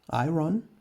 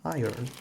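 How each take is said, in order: First: The word is sounded out following its spelling. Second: The word is said with its usual pronunciation. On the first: "writing it as iron" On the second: "still having the pronunciation of iron"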